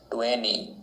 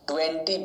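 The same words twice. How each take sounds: First: The t after the n is silent. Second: The t after the n is pronounced.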